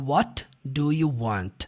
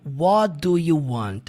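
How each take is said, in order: First: The T is pronounced clearly, without linking. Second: The T is linked smoothly into the next word.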